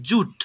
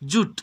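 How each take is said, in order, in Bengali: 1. শব্দটি একটি দলে বলা হয়, joot। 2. শব্দটি একটি দলে বলা হয়, joot।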